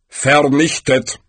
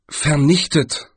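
First: Slow, falling, weighty "Vernichtet"; Death, definite. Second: Slow, questioning "vernichtet"; Galder, puzzled. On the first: Death repeats the doom, "Vernichtet" slow and final. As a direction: pronounce "Vernichtet" slowly as Death's final verdict. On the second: Galder queries Death's word, "vernichtet" drawn out, puzzled. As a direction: quote "vernichtet" slowly, as a doubtful query. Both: A narrator's reading.

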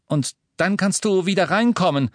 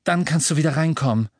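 First: Calling after her. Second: Said in the usual way. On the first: A narrator's reading. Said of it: "rief er ihr nach".

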